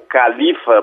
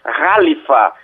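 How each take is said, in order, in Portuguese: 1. É pronunciada com pronúncia portuguesa. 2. É pronunciada com pronúncia árabe. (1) "que deu califa, porque o português gosta da paroxítona" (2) "Khalifa, em árabe"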